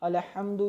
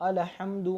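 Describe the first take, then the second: The two takes are said the same way.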